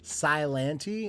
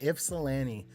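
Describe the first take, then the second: First: The opening 'Yp' sound is left out. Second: The opening 'Yp' sound is clearly pronounced. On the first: The speaker calls it wrong. "I tried to like make the Y silent" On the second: The speaker calls it right. "Ypsilanti. Yep"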